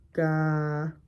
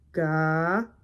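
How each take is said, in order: No difference in how they are said.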